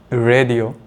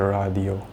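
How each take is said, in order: First: It is said with an English pronunciation. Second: It is said with a Japanese pronunciation. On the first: "in English" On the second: "in Japanese it's a radio"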